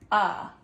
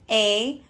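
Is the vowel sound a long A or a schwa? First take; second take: schwa; long A. First: The vowel is a short, relaxed uh sound. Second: The vowel is a long A sound. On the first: "we call that a schwa when it changes like that" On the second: "It changed from A"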